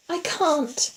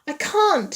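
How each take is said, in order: First: High, frightened, held-in voice; whispered back. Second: High, loud frightened cry; screamed. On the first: Terrified woman answering in the dark, whispered. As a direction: whisper it in fear, pitched high. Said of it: "she whispered back". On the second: Terrified woman refusing to move, screamed. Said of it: "she screamed". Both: A narrator's reading.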